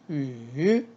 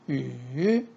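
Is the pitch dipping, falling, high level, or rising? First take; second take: dipping; dipping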